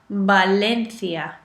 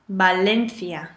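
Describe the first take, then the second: No difference in how they are said.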